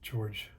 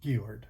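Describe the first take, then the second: First: The name is pronounced the English way. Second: The name is pronounced the German way. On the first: The speaker calls it wrong. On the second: The speaker calls it right.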